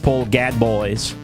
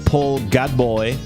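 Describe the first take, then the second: First: The surname ends in an oyz sound. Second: The surname ends in an oy sound. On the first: "If I just read what I see" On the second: "If I go like Illinois"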